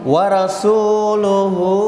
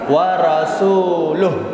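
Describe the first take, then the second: First: The phrase ends with its full final vowel. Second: The phrase ends cut short without the vowel.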